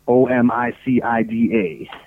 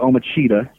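First: The name is said with non-Italian pronunciation. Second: The name is said with Italian pronunciation. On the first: This is how the name was wrongly expected to sound. "I thought it would have been Omicida" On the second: This is how the name is actually pronounced. "that's an Italian pronunciation"

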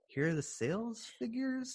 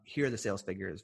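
First: It is said in a higher voice. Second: It is said in a deep voice.

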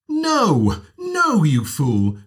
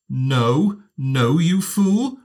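First: The voice starts high and falls. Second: The voice starts high and rises. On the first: "high fall" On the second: "high rise"

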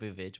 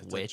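First: The word has an extra syllable at the start. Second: The word is said as one syllable. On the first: A joking in-group name for the title. "I call it Vivitch" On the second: The proper name of the title. "but I know it's Witch"

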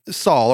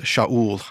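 First: The name begins with a plain s sound. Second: The name begins with a sh sound.

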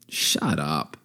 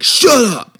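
First: It is said in a warm, affectionate tone. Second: It is said in a harsh, rude tone. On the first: It was meant playfully, not as an insult. "I said it kind of like endearingly" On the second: It would be a real insult. "I would never have been like"

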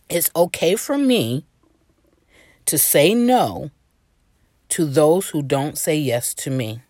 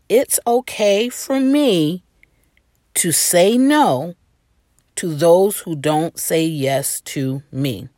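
First: It is said plainly, without extra force. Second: It is said forcefully, with energy from the gut.

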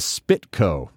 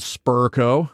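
First: The first syllable sounds like spit. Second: The first syllable sounds like spur. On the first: "what's up with the Spitco? No T in there" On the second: "Versions of it wrong included Spurco"

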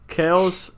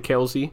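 First: The name is said the original way. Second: The name is said the American way. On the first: The speaker calls it right. "that's the original pronunciation" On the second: The speaker calls it wrong. "they can't pronounce Kelce, so they say Kelce"

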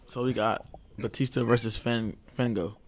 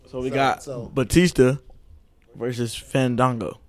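First: It is said flatly with little energy. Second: It is said loudly with lots of energy. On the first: The speaker seems not to be paying attention. The speaker calls it wrong. "we're going to need you to say it like you mean it, like you're paying attention" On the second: The speaker sounds engaged and enthusiastic. The speaker calls it right. "Put some excitement in your voice"

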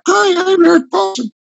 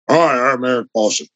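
First: The voice is higher and clearer. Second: The voice is lower and gravelly.

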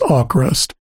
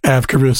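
First: No 'v' sound follows the first vowel. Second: A 'v' sound follows the first vowel. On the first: The speaker calls it right. "I finally did see a pronounced as, and it's" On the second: The speaker calls it wrong. "I kept saying Avkrvist because didn't know how to pronounce it"

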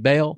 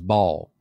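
First: The name is said the Southern English way. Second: The name is said the original way. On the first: The speaker calls it wrong. "our English Southern, ever how we do it, we say Baal" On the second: The speaker calls it right. "The real pronunciation is Baal"

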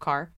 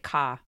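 First: It is said plainly, with the r pronounced. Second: It is said with a Boston accent, no r. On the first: "Instead of car" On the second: "She would say car"

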